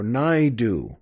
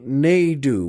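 First: "Naidu" said as NIGH-doo; alternative pronunciation of Naidu. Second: "Naidu" said as NAY-doo; first pronunciation of Naidu. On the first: Host offering another reading, "Naidu" as NIGH-doo. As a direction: say "Naidu" with first syllable like "nigh". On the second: Host introducing the poet, "Naidu" as NAY-doo. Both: Shown as a demonstration. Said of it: "or Naidu".

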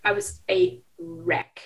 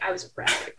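First: "wreck" drawn out slowly, higher and louder; emphatic repeat. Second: Said in the usual way. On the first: Real, not acted. Reader confessing how hard she cried, slow loud stress on "wreck". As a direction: spell out "I was a wreck" word by word, leaning on "wreck".

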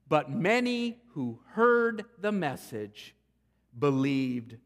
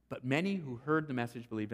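First: "heard" leaned on, slow and deliberate; the preacher slows down to stress that many believed; slow emphasis. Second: Said in the usual way. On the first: Shown as a demonstration. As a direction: savour "many who heard the message".

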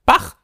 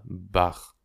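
First: High, loud one-word burst; impatient. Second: Said in the usual way. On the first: A narrator's reading. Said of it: "jetzt ungeduldig". (ungeduldig und laut herausgerufen)

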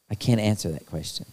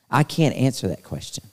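First: "I can't answer that question." dropped much softer, almost to himself; quiet, lower echo of "I can't answer that question."; softer repeat. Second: Said in the usual way. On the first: Real, not acted. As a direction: let "I can't answer that question." fall away softly.

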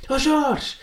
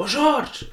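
First: High, strained call to Jorge; hammed-up shout to a friend. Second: High call across to Jorge; mock shout across the stadium exit. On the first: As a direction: yell his name again, much higher and in a put-on voice. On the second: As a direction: yell his name, much higher. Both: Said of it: "mandei um berro".

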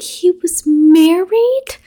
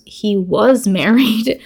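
First: High, slow, stunned rising question; shocked question. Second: Said in the usual way. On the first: Retold or imitated. Noah learning the dead man had a wife, shocked. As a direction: stretch it out in total disbelief. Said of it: "And Noah's like". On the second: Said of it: "And Molly goes".

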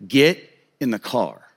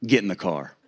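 First: Slow, lower, deliberate order; imitated stern father, drawn out; no-nonsense dad. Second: Low, quiet stern order; imitated stern father, softly commanding; no-nonsense dad. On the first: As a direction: spell the order out slowly, no argument. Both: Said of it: "very no-nonsense, handle your business kind of guy".

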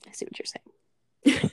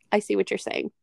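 First: Slow, whispered concession; hushed, drawn-out whispering. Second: Said in the usual way. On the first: Real, not acted.

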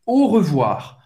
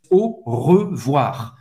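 First: Said in the usual way. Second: Lower, slow syllable-by-syllable French; slow model phrase. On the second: Shown as a demonstration. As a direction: separate each syllable for learners. Teacher models phrase slowly first. (francês devagar, sílaba por sílaba)

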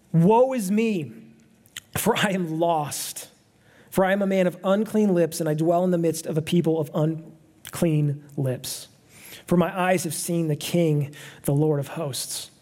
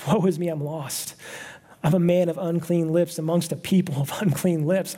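First: Slow, weighty reading of the prophet's lament; solemn scripture reading. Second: Said in the usual way. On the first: Acted. Pastor reading Isaiah's confession to the congregation, slow and solemn. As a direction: let each clause of the confession sink in, slowly.

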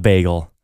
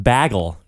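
First: Said in the usual way. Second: "bagel" said as BAG-ul; short a as in "bag" in "bagel"; variant pronunciation. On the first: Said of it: "not bagel". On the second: Shown as a demonstration. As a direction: say "bagel" to rhyme with "haggle". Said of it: "it's pronounced bagel".

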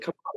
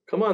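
First: Mouthed come on. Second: Said in the usual way. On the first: Retold or imitated. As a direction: come on said much softer, half mouthed. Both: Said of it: "he's singing, but he's like".

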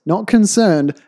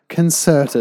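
First: Said in the usual way. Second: Concerted said with a clear hard T; concerted, crisp T sound; concerted, not concerned. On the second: Shown as a demonstration. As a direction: stress the T in concerted.

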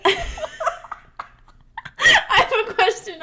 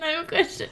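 First: Squeaky seagull-like high pitch. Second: Said in the usual way. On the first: Acted. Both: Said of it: "That was awful".

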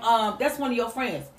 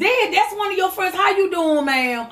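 First: Hesitant daughter. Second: Higher, quicker and breezy; breezy daughter voice. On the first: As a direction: hesitate as if unsure who she is. Same words, hesitant replay. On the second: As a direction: toss it off like a teen who suspects nothing. Mother replays daughter's breezy greeting. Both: Retold or imitated.

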